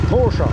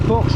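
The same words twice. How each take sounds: First: The word ends with an added 'a' sound. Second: The word ends without a final vowel sound. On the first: The speaker calls it right. "qu'on prononce ici avec un A" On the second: The speaker calls it wrong. "on dit pas Porsche"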